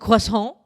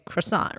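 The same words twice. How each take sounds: First: The word is pronounced the French way. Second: The word is pronounced the usual English way. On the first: Someone is correcting the speaker. "someone corrects you and they say, "Oh, it's croissant,"" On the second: This is how the speaker normally says it. "I would normally say croissant"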